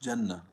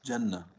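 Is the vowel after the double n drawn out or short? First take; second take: short; short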